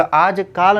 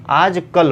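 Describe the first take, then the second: First: आजकाल with long aa, aajkaal; wrong form. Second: आजकल with short a, aajkal, slowly; correct form, slow. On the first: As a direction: say आजकाल stretching kaal. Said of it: "आजकाल नहीं". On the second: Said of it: "आजकल होता है". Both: Shown as a demonstration.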